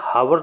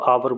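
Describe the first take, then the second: First: The word begins with an audible h sound. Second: The word begins with a vowel, no h. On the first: The speaker calls it wrong. "इसे हावर नहीं बोलते" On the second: The speaker calls it right. "इसको आवर बोलते हैं"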